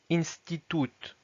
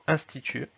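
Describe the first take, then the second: First: Institut as slow Russian "in-sti-toot"; Russian pronunciation. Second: Said in the usual way. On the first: Shown as a demonstration. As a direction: say "institut" with oo and final t sounded. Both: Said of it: "donc institut".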